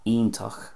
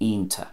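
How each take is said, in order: First: It starts with an ee sound, ending in ach. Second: The final ch is dropped, ending in ta. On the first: "Connacht, you can hear the e there" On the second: "Ulster, lose the ch at the end"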